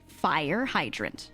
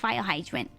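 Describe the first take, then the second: First: The R sounds are said as clear R sounds. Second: The R sounds are said more like L sounds. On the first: A parent is modeling it for the child. The speaker calls it right. "She would look at me and go" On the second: A small child is saying it. The speaker calls it wrong. "I said it a little incorrectly"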